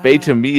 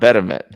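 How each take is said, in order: First: The name begins with a long 'bay' sound. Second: The name begins with a short 'bet' sound. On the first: The speaker calls it right. "Bay-to-me is how you're supposed to pronounce his name" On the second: The speaker calls it wrong. "not Betterment"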